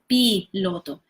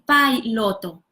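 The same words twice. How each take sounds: First: The i sounds like 'ee'. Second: The i sounds like English 'eye'. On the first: The speaker calls it right. "I is always E" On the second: The speaker calls it wrong. "they tend to pronounce this I as in English"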